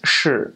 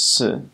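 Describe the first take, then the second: First: The syllable starts with a heavy sh sound. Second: The syllable starts with a light s sound. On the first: "the heavier Dalu or mainland accent is shi" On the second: "compared to Taiwanese, which is si"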